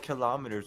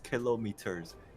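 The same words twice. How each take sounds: First: It is said the usual English way. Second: It is said the way other languages do. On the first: The speaker calls it wrong. "Why is it called kilometers" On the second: The speaker calls it right. "every other country says kilometers"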